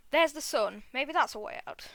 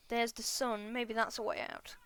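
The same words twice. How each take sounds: First: Louder, livelier reading of the line; changed voice. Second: Said in the usual way. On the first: Acted. Reader back from outside rereads the bee's line, changed louder voice. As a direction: read it out with more volume and lift. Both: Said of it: "my voice has changed a bit".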